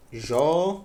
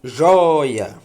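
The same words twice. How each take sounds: First: "Joia" broken in two, a pause after the open "Jó"; syllable by syllable. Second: "Joia" in one piece, JOI punched loud and drawn out; stressed first syllable. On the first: Teacher showing the class that Jói is a diphthong, syllable by syllable. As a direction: split "Joia" into separate syllables. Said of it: "Jói é um ditongo". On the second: Teacher showing the strong penultimate syllable, stressed loudly. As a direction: hit JOI hard in "Joia", let the end fall. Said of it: "Sílaba forte é a penúltima". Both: Shown as a demonstration.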